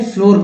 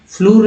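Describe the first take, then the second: First: फ्लोर said with a clear o vowel; फ्लोर with a long o sound; correct pronunciation of floor. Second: फ्लूर said with a long oo vowel, as the mistake; फ्लूर with a long oo sound; wrong pronunciation of floor. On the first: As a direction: say फ्लोर with o, like door. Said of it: "फ्लोर पढ़ना है". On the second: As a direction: say फ्लूर with oo, like room. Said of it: "फ्लूर नहीं पढ़ सकते हैं". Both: Shown as a demonstration.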